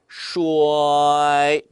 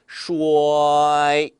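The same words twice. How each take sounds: No difference in how they are said.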